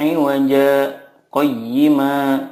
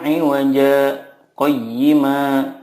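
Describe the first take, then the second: First: A brief stop comes before qayyima. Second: The same.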